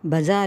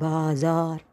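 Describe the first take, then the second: First: The first vowel is short. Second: The first vowel is long. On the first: This is the casual everyday form. The speaker calls it wrong. "பஜார் இல்லை" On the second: This is the original form. The speaker calls it right. "ஒரிஜினலாக அது பாஜார்"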